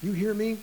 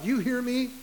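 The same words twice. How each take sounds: First: Stern parent. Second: A touch of a stern parent, higher; lightly mock-scolding a child. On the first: Retold or imitated. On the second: Parent warning a child, mock stern. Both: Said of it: "When you say to a child".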